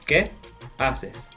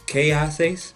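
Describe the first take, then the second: First: Qué has a short pure e vowel. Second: Qué has a gliding ay vowel. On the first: The speaker calls it right. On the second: The speaker calls it wrong. "you never want to say K"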